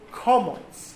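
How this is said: The first vowel sounds like 'o', Ashkenazic style.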